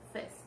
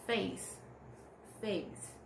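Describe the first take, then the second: First: "fez" said as a short clipped eh vowel, no glide. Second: "face" said with a full gliding ay vowel. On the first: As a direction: cut "face" short to "fez". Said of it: "It's short, short". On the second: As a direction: stretch "face" into a clear diphthong. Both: Shown as a demonstration.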